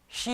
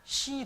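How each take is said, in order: First: The word begins with an sh sound. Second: The word begins with a plain s sound. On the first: The speaker calls it right. "시 하면" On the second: The speaker calls it wrong. "시 그래요"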